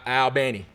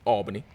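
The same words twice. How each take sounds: First: Albany is pronounced differently from the New York way. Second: Albany is pronounced the New York way. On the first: This is how the school's home town is named. The speaker calls it right. "but Albany" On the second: This is how the city in New York is named. The speaker calls it wrong. "Not like New York, not like the city, Albany"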